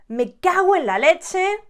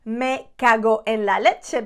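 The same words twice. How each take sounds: First: The o and e merge quickly, almost a u. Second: Each word is said separately and fully. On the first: The speaker calls it right. "we make it quicker. We kind of join the O with the E" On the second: The speaker calls it wrong. "we don't say me cago en la leche"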